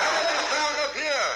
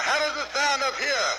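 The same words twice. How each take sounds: First: Pushed even higher, with a laugh. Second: Much higher, first attempt at a high voice. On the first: Acted. Told to go higher, he pushes up with a laugh. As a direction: go way up, higher still. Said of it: "No, go get up higher". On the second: Trying out a high voice for his partner. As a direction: reach up into a high register. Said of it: "I'll try to get a high one".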